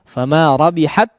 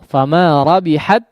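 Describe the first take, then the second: The two takes are said the same way.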